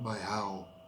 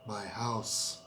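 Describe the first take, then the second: First: The word ends without any s sound. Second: The word ends with a clear s sound. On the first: The speaker calls it wrong. "not my how" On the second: The speaker calls it right. "Thais tend to forget the S very often"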